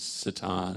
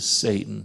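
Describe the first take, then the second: First: The name is said with a French pronunciation. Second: The name is said with an English pronunciation. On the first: "in France, it's Satan" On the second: "That's an English idiom"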